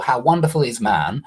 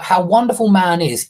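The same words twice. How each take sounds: First: Said in the usual way. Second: Louder, weight on wonderful, falling; emphatic stress. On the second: Shown as a demonstration. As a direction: punch "wonderful" hard and let it fall. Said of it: "is more emphatic".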